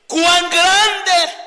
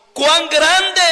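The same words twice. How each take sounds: First: Loud, high awe-struck cry; admiring exclamation. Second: Loud, high exclamation; exclaimed. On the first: Preacher showing the church the admiration mark, loud and high. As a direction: cry it out in wonder. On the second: Preacher reading the psalm to the church, exclaimed. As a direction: read it with the exclamation mark. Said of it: "signo de admiración". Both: Shown as a demonstration.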